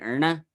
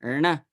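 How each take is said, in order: Both takes have the same delivery.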